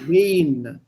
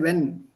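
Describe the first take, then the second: First: The vowel is a long e sound. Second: The vowel is short, like English when. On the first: The speaker calls it right. "It's a long E" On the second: The speaker calls it wrong. "don't say when"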